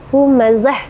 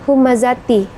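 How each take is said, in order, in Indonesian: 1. Kata ini berakhir dengan bunyi h yang terhenti. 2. Kata ini berakhir dengan suku kata ti yang penuh. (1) "harus mati di sana ... ta marbutahnya itu menjadi ha" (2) "kita tidak boleh membaca dengan humazati"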